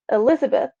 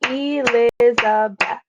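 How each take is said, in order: First: Said in the usual way. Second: Elizabeth broken into four beats, E-liz-a-beth; syllable by syllable. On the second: Shown as a demonstration. Teacher showing a full name, Elizabeth syllable by syllable. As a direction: clap out Elizabeth, each syllable separate. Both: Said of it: "four syllables in her name".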